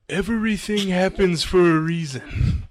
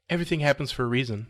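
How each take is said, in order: First: It is spoken with a put-on foreign accent. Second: It is spoken without a foreign accent. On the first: "give me your best try at any accent you want" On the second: "was that your impersonation of her?"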